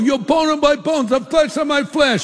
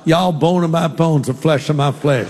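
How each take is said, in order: First: It is said in an East Coast accent. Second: It is said in a Southern accent.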